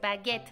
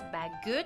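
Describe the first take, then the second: First: The e is an open 'eh' vowel. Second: The e is a neutral 'uh' vowel. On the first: The speaker calls it right. "es baguette" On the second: The speaker calls it wrong. "no es baguette"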